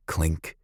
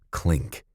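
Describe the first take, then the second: No difference in how they are said.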